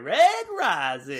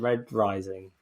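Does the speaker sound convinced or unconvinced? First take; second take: convinced; unconvinced. First: It is said firmly, with conviction. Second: It is said flatly, without conviction. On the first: The speaker calls it right. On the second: The speaker calls it wrong.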